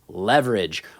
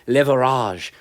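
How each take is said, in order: First: It is said in a plain English accent. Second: It is said in a mock French accent.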